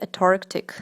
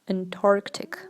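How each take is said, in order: First: The n after the first vowel is left out. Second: The n after the first vowel is clearly pronounced. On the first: The speaker calls it wrong. "they miss the N" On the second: The speaker calls it right. "the N here, it is not silent, so you should pronounce it"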